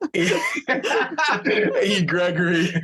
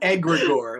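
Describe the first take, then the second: First: The first vowel sounds like the letter E. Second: The first vowel sounds like the word egg. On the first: The speaker calls it wrong. "That sounds like like a, an e card service" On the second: The speaker calls it right. "like an egg"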